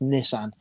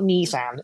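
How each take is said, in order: First: Nissan is pronounced the British way. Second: Nissan is pronounced the American way. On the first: The speaker calls it right. "It's Nissan" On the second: The speaker calls it wrong. "It's not Nissan"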